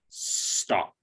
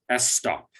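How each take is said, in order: First: The S and T are blended without vowels. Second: A vowel is inserted before the S. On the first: The speaker calls it right. "it's just stop" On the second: The speaker calls it wrong. "there is no vowel sound before the S, so it is not S stop"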